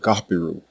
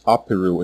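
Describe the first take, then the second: First: The name begins with a throaty consonant. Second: The name begins directly with a vowel. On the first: This is how native speakers said it. "what it sounded like when native Egyptians pronounced it" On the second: This is the English rendering. "normalized as Apiru in English, because English does not have this letter or its equivalent sound"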